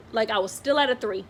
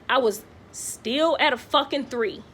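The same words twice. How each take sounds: First: Said in the usual way. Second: Slowed, stressed "fucking three"; exasperated stress on "fucking three"; exasperated emphasis. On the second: Retold or imitated. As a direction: lean into "fucking" and drag out "three". Exasperated at labor not progressing.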